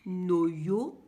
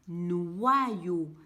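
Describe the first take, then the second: First: The first syllable is a plain 'no' sound. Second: The first syllable is a 'nwa' sound. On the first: The speaker calls it wrong. "je ne vais pas lire noyo" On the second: The speaker calls it right. "je lis noyau parce que le Y a aussi le son I et que le O devant le Y se lit wa"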